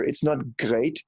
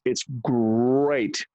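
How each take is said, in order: First: "great" said slow with hard German-style sounds; "great" with a heavy accent; wrong accent "great". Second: "great" said the plain American way; "great" in easy American speech. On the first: Friend demonstrating the wrong "great" to fix an accent. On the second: Friend demonstrating the right American "great". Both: Shown as a demonstration. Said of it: "let me start right here".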